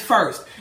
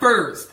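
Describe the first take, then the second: First: The word ends with a clear t sound. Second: The word ends without the t, like furs. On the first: The speaker calls it right. "I do know the word first is first" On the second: The speaker calls it wrong. "not first"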